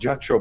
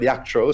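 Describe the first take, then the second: First: The name begins with an English J sound. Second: The name begins with a Y sound. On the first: The speaker calls it wrong. "his name isn't pronounced Jack Troll" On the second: The speaker calls it right. "but Yak Troll"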